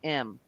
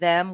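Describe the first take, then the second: First: The word starts without any 'th' sound. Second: The word starts with a clear 'th' sound. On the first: "we're saying em" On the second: "instead of saying them"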